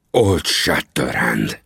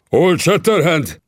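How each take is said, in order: First: Very slow, lower, trembling with rage; a lightly voiced furious tremble. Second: A slow, drawn-out cry, pitched higher; startled chief shouting the name; shouted name. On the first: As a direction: repeat the name, shaking with anger. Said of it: "ismételte Tangu a reszkető hangon". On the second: Acted. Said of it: "kiáltotta".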